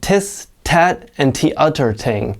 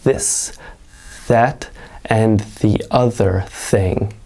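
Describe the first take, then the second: First: The th sounds are replaced by hard t sounds. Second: The th sounds are soft, with air through teeth. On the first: The speaker calls it wrong. "they'll pronounce it like tis" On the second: The speaker calls it right. "your tongue slightly in between your teeth and just letting the air pass"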